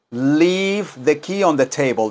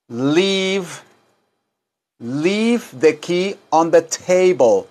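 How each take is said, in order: First: Said in the usual way. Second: Slow, careful English; slow teaching read; slow model sentence. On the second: Shown as a demonstration. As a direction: say it slowly for repeating.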